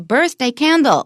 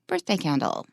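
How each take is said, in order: First: The stress falls on the second word. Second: The stress falls on the first word. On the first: The speaker calls it wrong. "we don't say birthday candle" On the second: The speaker calls it right. "We say birthday candle"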